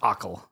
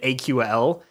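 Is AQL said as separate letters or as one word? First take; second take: one word; letters. First: It is pronounced together as a single word. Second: It is spelled out as three separate letters. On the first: The speaker calls it right. "It's pronounced AQL" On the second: The speaker calls it wrong. "I kept pronouncing it AQL as, like, three separate letters"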